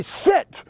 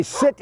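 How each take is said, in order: First: "sit" pushed out in mock frustration; frustrated command. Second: Said in the usual way. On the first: Shown as a demonstration. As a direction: act out losing patience on "sit". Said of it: "then you get frustrated and you say". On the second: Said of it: "you might say sit one time".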